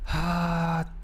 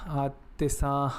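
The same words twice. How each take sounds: First: Loose Southern cowboy twang; cowboy accent. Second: Said in the usual way. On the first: Shown as a demonstration. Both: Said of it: "Can you do the South American accent?".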